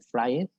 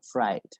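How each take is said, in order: First: The ending is sounded as a separate syllable. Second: The ending is not a separate syllable. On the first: The speaker calls it wrong. "como burdamente y feamente fried" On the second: The speaker calls it right. "Le quitamos la E y lo pronunciamos. Entonces nos queda como fried"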